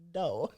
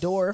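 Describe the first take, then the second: First: The R sound is dropped. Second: The R sound is pronounced. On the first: "dropping the R" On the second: "instead of saying"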